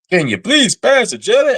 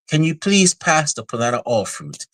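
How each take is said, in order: First: Loud, high Southern American twang; hammed-up Southeast American accent, pitched way up. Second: High-pitched polite diner's request; mock-refined, pitched up and falling to the end; upscale restaurant diner. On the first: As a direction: belt it out like a Southern American diner. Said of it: "Southern American accent". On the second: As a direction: imitate a genteel diner in a commercial. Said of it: "some kind of upscale restaurant".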